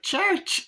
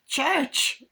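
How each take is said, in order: First: Put-on possessed child. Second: High mock little-boy call; child calling cat. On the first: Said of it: "when he's possessed". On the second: Little boy calling his cat Church, high mock child voice. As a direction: imitate a kid calling for his pet.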